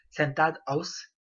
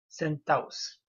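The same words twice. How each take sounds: First: "sentados" with the d kept before os; full form with D. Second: "sentaos" with no d between a and o; dropped final consonant. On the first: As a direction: pronounce the d in "sentados", split before os. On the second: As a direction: glide from a into os in "sentaos". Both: Shown as a demonstration. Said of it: "le S tombe, tout comme".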